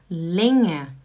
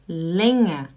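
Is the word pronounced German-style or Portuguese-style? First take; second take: German-style; German-style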